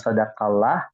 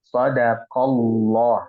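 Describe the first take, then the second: First: The 'Allah' part is pronounced light and thin. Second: The 'Allah' part is pronounced heavy and thick. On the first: The speaker calls it wrong. "bukan sadaqallah" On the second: The speaker calls it right. "Allahnya ini tebal ya"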